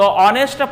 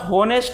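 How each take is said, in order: First: The word starts with a vowel, h silent. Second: The word starts with a pronounced h sound. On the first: The speaker calls it right. "होनेस्टमध्ये एच काय silent आहे" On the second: The speaker calls it wrong. "विद्यार्थी काय करतात? होनेस्ट बोलतात"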